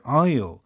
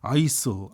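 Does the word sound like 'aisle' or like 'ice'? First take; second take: aisle; ice. First: The word is said like 'aisle'. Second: The word is said like 'ice'. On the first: The speaker calls it right. "aisle 이 단어 잘 하셔야 되고요" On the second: The speaker calls it wrong. "막 아이스, 아이스 이러는데"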